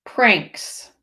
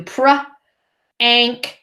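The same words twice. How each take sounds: First: Said in the usual way. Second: "Pr-anks" split into "pr" then "anks"; sounded out slowly. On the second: Shown as a demonstration. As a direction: tap out "Pr-anks" in two slow parts. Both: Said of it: "slow it down and tap it out".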